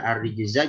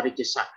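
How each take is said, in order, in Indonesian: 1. Huruf tengahnya adalah bunyi z yang berdengung. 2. Huruf tengahnya adalah bunyi s yang mendesis.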